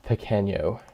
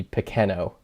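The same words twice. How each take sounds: First: Pequeño said with a Spanish ny sound, peh-KEH-nyo. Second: Pequeno with a plain n, peh-KEH-no, no ny sound; without the ñ. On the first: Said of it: "If there's no ñ". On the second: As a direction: drop the ñ: Pequeno ends in a clean no. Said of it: "which I guess would be Pequeno". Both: Shown as a demonstration.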